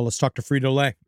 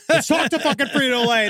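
First: Said in the usual way. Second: High, emphatic rallying cry; mock fired-up. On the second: Host jokingly rallying listeners to investigate coworkers, mock fired-up. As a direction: pitch it up like a motivational rant. Repeats suggestion in mock enthusiasm.

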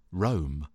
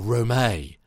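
First: Rome as one syllable, silent E; like the city. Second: Rome said as two syllables, "ro-MAY"; Rome as French-sounding "roh-MAY", second syllable stressed; accented pronunciation. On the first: Narrator misreading the character's name, Rome said like the city. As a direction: say Rome plainly to rhyme with "home". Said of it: "like the city". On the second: Narrator giving a character's romantic name, Rome pronounced "ro-MAY". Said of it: "Sounds romantic". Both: Shown as a demonstration.

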